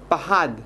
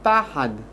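First: The stress is on the last syllable. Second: The stress is on the first syllable. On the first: It is the verb meaning was afraid. "אדם מסוים פחד ללכת בחושך" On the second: It is the noun meaning fear. "אין לי פחד"

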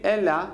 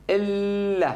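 First: The middle L is short and single. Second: The middle L is held long and doubled. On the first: "במקום להגיד אלא, למד אחת" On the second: "אמרתי שתי למדים בבת אחת"

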